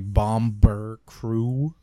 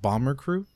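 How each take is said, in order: First: The name is said in an exaggerated bad accent. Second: The name is said in a plain, normal way.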